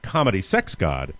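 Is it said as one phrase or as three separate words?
one phrase. The words run together as one phrase. The author is calling himself a comedy sex god. The speaker calls it wrong. "It is not"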